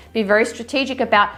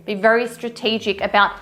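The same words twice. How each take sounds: The two takes are said the same way.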